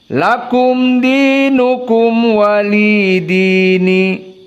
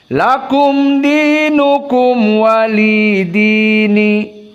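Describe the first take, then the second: No difference in how they are said.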